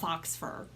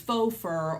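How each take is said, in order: First: The first word sounds like 'fox', ending in x. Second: The first word sounds like 'foe', without x. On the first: The speaker calls it wrong. "They just sounded it out. They pronounced it phonetically" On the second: The speaker calls it right. "what they mean is faux fur"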